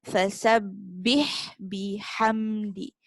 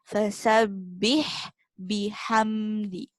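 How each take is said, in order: The two takes are said the same way.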